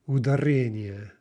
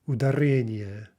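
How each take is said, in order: The two takes are said the same way.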